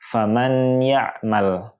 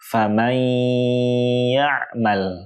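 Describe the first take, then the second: First: The n is pronounced clearly and separately. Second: The n merges into the next sound with a held hum. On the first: The speaker calls it wrong. "menyebutkan huruf nunnya dengan jelas" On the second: The speaker calls it right.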